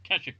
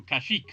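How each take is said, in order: First: "Kashyyyk" as KASH-ik, short ending; first-syllable stress. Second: "Kashyyyk" as ka-SHEEK, rising at the end; second-syllable stress. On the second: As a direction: say "Kashyyyk" with a long, lifted "sheek". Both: Real, not acted. Tries two pronunciations of planet name.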